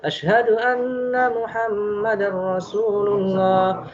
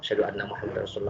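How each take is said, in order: First: It is said loudly, in a full voice. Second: It is said softly, in a low voice.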